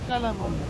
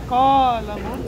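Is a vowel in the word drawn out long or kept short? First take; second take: short; long. First: The vowels in the word are kept short. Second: A vowel in the word is drawn out long. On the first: The speaker calls it right. "say Qalamun" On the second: The speaker calls it wrong. "try to reduce the mud. Don't say Qalamun"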